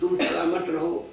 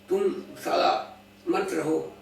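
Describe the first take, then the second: First: Salamat is said as one unbroken word. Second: Salamat is split into sala and mat. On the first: A wish that the listener stays safe and well. The speaker calls it right. "वो दुआ करते हैं तुम सलामत रहो" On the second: An insult telling the listener not to exist. The speaker calls it wrong. "Accent बदल गया जी"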